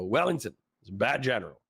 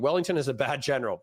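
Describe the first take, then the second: First: It is said in a put-on stoner voice. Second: It is read in his plain voice.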